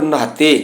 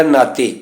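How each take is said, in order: First: ਨਹਾਤੇ with a breathed h after the n; half-h pronunciation. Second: Said in the usual way. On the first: Shown as a demonstration. Teacher reciting the line on bathing, half-h pronunciation. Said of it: "ਅਧਿਹਾਏ ਦਾ ਉਚਾਰਨ ਕਰਨਾ ਹੈ". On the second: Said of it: "ਇੱਥੇ ਲਿਖਿਆ ਨਾਤੇ".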